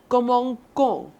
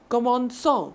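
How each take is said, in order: First: The middle consonant is a hard K sound. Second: The middle consonant is a soft S sound.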